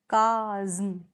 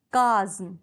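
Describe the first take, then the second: First: "काज्म" stretched out as kaaa-zzm; drawn-out syllables. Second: "काज्म" said as kaa-zm, in two beats; syllable demonstration. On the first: Teacher showing two vowel sounds, "काज्म" drawn out as kaaa-zzm. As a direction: hold the long aa in "काज्म", then a separate zm. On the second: Teacher showing two vowel sounds, "काज्म" sounded out as kaa-zm. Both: Shown as a demonstration. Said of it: "दोनों मिलकर दो vowel sound दे रहे हैं".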